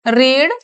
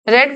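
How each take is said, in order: First: The vowel is long, as in 'reed'. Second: The vowel is short, as in 'red'. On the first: The action happens in the present. "Rama रीड" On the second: The action happened in the past. "थोड़ा pronunciation change हो जाती है। रेड बोलते हैं"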